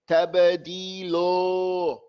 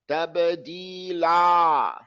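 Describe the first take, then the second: First: The final vowel is rounded, like 'o'. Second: The final vowel is open and flat, like 'a'. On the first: The speaker calls it wrong. "Don't say tabadilo" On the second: The speaker calls it right. "The tongue is flat in your mouth"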